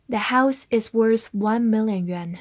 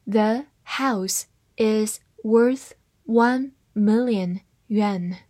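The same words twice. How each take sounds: First: Said in the usual way. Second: Slow, careful reading of "The house is worth one million yuan"; slowed-down model sentence. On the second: Shown as a demonstration. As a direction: read it slowly word by word. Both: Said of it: "跟我慢读一遍".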